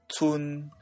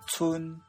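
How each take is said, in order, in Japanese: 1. この音節は中平調で発音します。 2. この音節は高平調で発音します。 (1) "ツンがツンになる" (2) "第一声は1 段階下の平らな声調である第7 声に転調します。"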